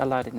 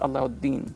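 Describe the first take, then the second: First: The name has no 'oo' vowel after 'la'. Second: The name has an 'oo' vowel after 'la'. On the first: The speaker calls it wrong. "it's not actually Aladdin" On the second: The speaker calls it right. "it's Alauddin"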